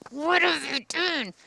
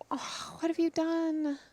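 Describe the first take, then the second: First: It sounds angry. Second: It sounds loving and sorrowful.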